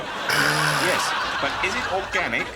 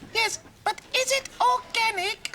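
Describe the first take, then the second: First: It is said in a normal voice. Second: It is said in a squeaky voice.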